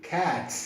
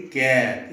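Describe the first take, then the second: First: Cat with a clear aspirated k sound; cat with a crisp puff of air on the k; right way cat. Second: Cat said without the puff on the k; wrong way cat. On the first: Teacher modelling the correct cat, k aspirated. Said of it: "you have to say cat". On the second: Teacher showing the wrong cat, without a k puff. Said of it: "you cannot say cat". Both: Shown as a demonstration.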